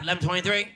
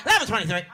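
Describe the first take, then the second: First: Imitating a cop in no rush to respond; reluctant black cop. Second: Imitating a cop keen for the call; mock-eager police radio response; eager white cop. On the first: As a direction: answer the call with no eagerness at all. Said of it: "we don't show up to shit first". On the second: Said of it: "White cops can't wait to get a call".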